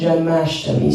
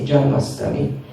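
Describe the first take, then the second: First: The middle cluster is said as sht. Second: The middle cluster is said as st. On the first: This is the proper traditional way to say it. The speaker calls it right. "but it should be Radhashtami and Janmashtami" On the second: This is how people in one country usually say it. The speaker calls it wrong. "In Hungary they often say Janmastami"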